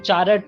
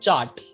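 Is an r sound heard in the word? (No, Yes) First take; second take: Yes; No. First: The word is said with an r sound. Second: The word is said with no r sound. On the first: The speaker calls it wrong. "तुम चारट नहीं बोलते" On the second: The speaker calls it right. "we don't pronounce r, it is chart"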